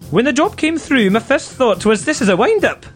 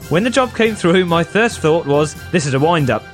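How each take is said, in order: First: It is read in a put-on Scottish accent. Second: It is read in an ordinary, non-Scottish accent. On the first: "Do it in a Scottish accent" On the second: "Why are you not doing this in a Scottish accent?"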